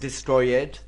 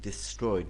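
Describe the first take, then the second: First: The -ed ending is said hard. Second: The -ed ending is said softly. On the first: The speaker calls it wrong. "Not destroyed. No" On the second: The speaker calls it right. "But this is soft"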